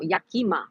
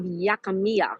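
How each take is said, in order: First: "Yakima" as YAH-kee-muh, three syllables, falling at the end; corrected Yakima. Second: "Yakimiya" said as yak-uh-MEE-uh, four syllables with an extra -iya ending; mispronounced Yakimiya. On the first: Correcting herself on the city name for the chat, a settled falling tone. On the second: Reading a trivia place name to the chat, fumbling it. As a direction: stumble into "Yakimiya", tacking on an extra syllable at the end. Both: Real, not acted. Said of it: "no, Yakima".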